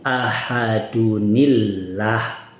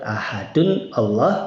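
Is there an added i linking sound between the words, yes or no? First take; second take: yes; no. First: The words are joined with a linking i sound. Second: The two words are said without a linking i. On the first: "maka dibaca kalau disambung ahadunillah" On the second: "Misal ahadun Allah"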